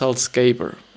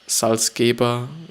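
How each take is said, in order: First: The name is said with English pronunciation. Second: The name is said with German pronunciation.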